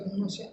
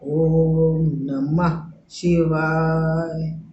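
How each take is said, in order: First: It is rattled off quickly without clear articulation. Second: It is said clearly in a measured rhythm. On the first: The mantra is being repeated carelessly. The speaker calls it wrong. "ऐसे ना करें" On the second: The mantra is being chanted properly. The speaker calls it right. "ताल में, लय में"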